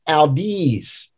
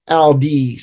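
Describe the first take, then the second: First: The two syllables are not both held long. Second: Both syllables are held out long, evenly. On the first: The speaker calls it wrong. "You want to say audis" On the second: The speaker calls it right. "Both those syllables are half notes, so you kind of hold them out"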